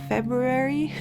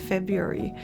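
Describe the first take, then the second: First: The first R sound is clearly pronounced. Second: The first R sound is left out. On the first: "Americans don't say February" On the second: "you're not saying the R"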